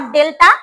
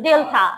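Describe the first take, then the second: First: "delta" with an unaspirated, local-style t; wrong pronunciation. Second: "delta" with an aspirated, drawn-out "tha"; corrected pronunciation. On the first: Teacher showing pupils the mistake, "delta" with a hard unaspirated t. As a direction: say "delta" with no puff on the t. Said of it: "Not delta". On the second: Teacher correcting pupils, "delta" with a breath after the t. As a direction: say "delta" as del-thaa, puff on the t. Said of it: "it's delta". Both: Shown as a demonstration.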